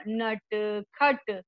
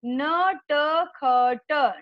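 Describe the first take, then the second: First: Said in the usual way. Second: नटखट split slowly into na-ta-kha-ta; syllable by syllable. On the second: Shown as a demonstration. Teacher to children, sounding out नटखट slowly. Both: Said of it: "शुद्ध उच्चारण के साथ हम बार बार दोहरा".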